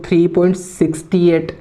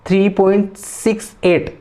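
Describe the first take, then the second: First: SIXTY-EIGHT read as one whole number after the point; wrong reading. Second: Slow "six, eight" as separate digits after the point; digit-by-digit reading. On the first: Teacher showing students the mistake, wrong reading. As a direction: say "sixty eight" as a single number. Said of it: "ऐसे नहीं पढ़ना". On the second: Teacher showing the correct way, digit by digit. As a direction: space out "six" and "eight" slowly. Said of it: "sixty eight नहीं six eight पढ़ना है". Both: Shown as a demonstration.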